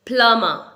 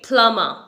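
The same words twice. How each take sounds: First: The b sound is silent. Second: The b sound is silent.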